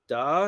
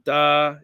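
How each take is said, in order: First: The pitch dips and rises again. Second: The pitch stays level and flat. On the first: "Da is the wavy one" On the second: "da is like the flat"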